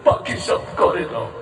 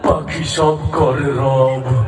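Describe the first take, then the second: First: It is recited in a weeping, tearful voice. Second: It is recited in a menacing, frightening voice. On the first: "ও আবার কান্দি কান্দি বলতেছে" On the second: "আবার আরো ভয়ংকর ভাবে বলল"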